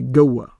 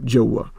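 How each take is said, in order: First: The word begins with a hard g sound. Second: The word begins with a j sound. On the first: "they pronounce the jim with with a uh, g sound. So they would say goa" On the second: "as opposed to joa"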